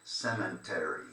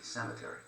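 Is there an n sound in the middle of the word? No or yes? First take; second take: yes; no. First: An n sound is added, like cement. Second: No n sound is heard in the middle. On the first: The speaker calls it wrong. "they add the N in when they say it in English" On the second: The speaker calls it right. "There's no there's no N"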